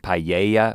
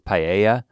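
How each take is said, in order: First: The middle of the word sounds like 'yay'. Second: The middle of the word sounds like 'a'. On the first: The speaker calls it wrong. "so many people have told me that I'm saying I'm saying paella" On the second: The speaker calls it right. "which is not is paella"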